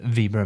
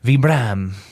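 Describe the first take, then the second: First: It is said with a plain American pronunciation. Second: It is said with a French-style pronunciation.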